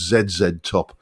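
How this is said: The letters are said the British way. "in my U K English brain, I pronounced it as"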